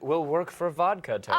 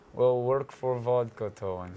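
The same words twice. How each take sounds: First: It is said in the speaker's normal accent. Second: It is said in a put-on Russian accent.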